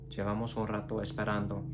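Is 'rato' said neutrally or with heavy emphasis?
neutral. The sentence is said evenly, without special emphasis. They have been waiting a while.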